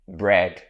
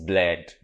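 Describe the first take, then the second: First: The word is said with an R sound. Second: The word is said with an L sound. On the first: The speaker calls it right. "pronounce the R sound properly" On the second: The speaker calls it wrong. "with the Igbo guys, bread is bled"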